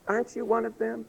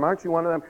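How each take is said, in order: First: Put-on high, soft little-girl voice. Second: Said in the usual way. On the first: Little girl questioning Peter, high and small. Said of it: "And this little girl, she goes". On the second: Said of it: "And then someone else".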